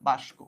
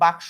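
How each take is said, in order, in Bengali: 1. s ধ্বনিটি k-এর আগে আসে। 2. k ধ্বনিটি s-এর আগে আসে। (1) "অনেক জায়গায় বলে বাস্ক" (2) "এই যে যে বাক্স বলি"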